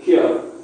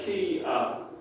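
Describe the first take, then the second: First: The two vowels are run together into one. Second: The two vowels are said as separate syllables. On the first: The speaker calls it right. "vowels and Māori tend to be run together. So kia" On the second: The speaker calls it wrong. "you probably want to say kia"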